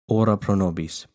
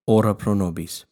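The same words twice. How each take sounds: The two takes are said the same way.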